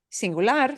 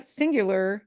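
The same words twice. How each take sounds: First: "singular" with Spanish end stress, rising; sin-gu-LAR, last syllable punched; Spanish pronunciation. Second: Said in the usual way. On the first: Shown as a demonstration. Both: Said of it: "needs an accent mark".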